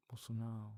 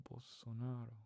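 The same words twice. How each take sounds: First: "Bolsonaro" ending in "ow", no R; dropped R. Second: Said in the usual way. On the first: Shown as a demonstration. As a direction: say "Bolsonaro" without pronouncing the R. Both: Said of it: "you don't pronounce the R".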